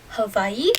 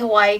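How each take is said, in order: First: The name is said the Hawaiian way. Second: The name is said the usual English way. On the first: "that's the proper way to say it" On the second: "I still say Hawaii"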